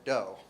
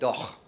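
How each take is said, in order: First: The word ends in a plain vowel sound. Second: The word ends in a rough ch sound. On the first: The speaker calls it right. "letters that don't represent any sounds at all" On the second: The speaker calls it wrong. "most of you probably don't say doch"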